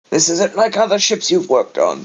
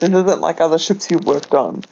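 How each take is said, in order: First: It is said in an attempted character voice. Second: It is said in the speaker's own voice.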